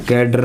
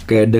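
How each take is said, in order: First: "कैडर" with final r sounded; Indian-style "कैडर"; wrong pronunciation. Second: "कैडे" ending with no r; r-less "कैडे"; correct pronunciation. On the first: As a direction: pronounce the r ending of "कैडर". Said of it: "कैडर नहीं होता". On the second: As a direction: end "कैडे" on an open vowel. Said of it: "कैडे होता है". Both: Shown as a demonstration.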